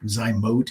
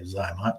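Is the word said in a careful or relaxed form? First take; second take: careful; relaxed. First: The word is said in its full, careful form. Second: The word is said in a shortened, relaxed form. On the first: This is the technically correct name. The speaker calls it right. "I think Zymote is technically the, the correct pronunciation" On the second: This is the easier everyday name. The speaker calls it wrong. "we're lazy around here, so it's easier for us to say Zymot"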